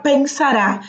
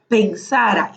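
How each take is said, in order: First: "pensará" stressed on the final RÁ; accented final A. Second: "pensara" stressed on SA, the middle syllable; no final accent. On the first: Teacher shows what the accent does, "pensará" stressed at the end. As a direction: land hard on the last A of "pensará". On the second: Teacher drops the written accent, "pensara" stressed on SA. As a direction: let the final A of "pensara" go weak after SA. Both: Shown as a demonstration. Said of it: "si no tuviese el acento".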